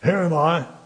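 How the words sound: The stress is on here.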